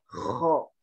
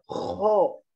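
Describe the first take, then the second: First: The vowel is thick with the mouth open. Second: The vowel is said with rounded lips. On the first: The speaker calls it right. "Sifat istilah itu artinya tebal, maka bacanya kho" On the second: The speaker calls it wrong. "Jadi bukan kho"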